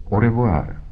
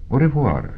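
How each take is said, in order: First: Raised-pitch parting au revoir; a lightly voiced detective's goodbye; Holmes's farewell. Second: Higher-pitched feminine au revoir; lightly voiced woman visitor. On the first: Holmes takes leave of his visiting client, lightly voiced farewell. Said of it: "řekl Holmes". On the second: Departing client answers Holmes's goodbye, lightly voiced woman. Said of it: "řekla naše návštěvnice". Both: A narrator's reading.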